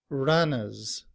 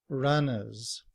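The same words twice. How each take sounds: Both takes have the same delivery.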